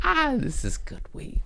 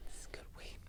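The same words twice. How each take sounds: First: High, squeaky delight over the weed; savoring. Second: Whispered, breathy repeat of the line. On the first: Stoned host praising the weed in a high squeak. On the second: Stoned host whispering his praise of the weed. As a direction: whisper it like a secret. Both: Real, not acted.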